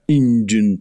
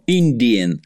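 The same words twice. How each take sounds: First: The middle is reduced to a 'j' sound. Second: The middle is said as a clear 'di'. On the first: An offensive name for the people. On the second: A neutral name for the people.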